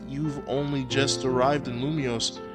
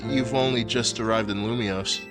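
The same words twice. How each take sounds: First: It is said in a Southern American accent. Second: It is said without a Southern American accent. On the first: The speaker calls it wrong. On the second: The speaker calls it right. "stick with the voice I was giving her before"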